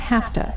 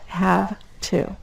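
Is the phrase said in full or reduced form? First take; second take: reduced; full. First: The words blend into a reduced form. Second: The words are said fully and separately.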